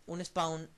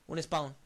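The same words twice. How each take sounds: The two takes are said the same way.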